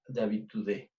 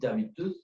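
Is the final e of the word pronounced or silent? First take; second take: pronounced; silent. First: The final e is pronounced. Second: The final e is silent. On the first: The speaker calls it wrong. "on dit pas d'habitude" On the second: The speaker calls it right. "on dit d'habitude"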